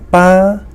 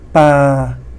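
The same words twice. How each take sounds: First: The pitch stays high throughout. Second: The pitch stays level throughout. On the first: Dad. "high tone" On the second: To throw. "This is the flat tone"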